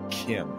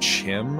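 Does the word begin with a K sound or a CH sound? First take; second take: K sound; CH sound. First: The word begins with a hard K sound. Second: The word begins with a CH sound. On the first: The speaker calls it right. "it's not Kim as in like K I M" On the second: The speaker calls it wrong. "some people say Chim"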